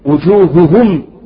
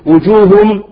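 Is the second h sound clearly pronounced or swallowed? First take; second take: clear; swallowed. First: Both h sounds are clearly pronounced. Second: The second h sound is hidden and weak. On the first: The speaker calls it right. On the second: The speaker calls it wrong.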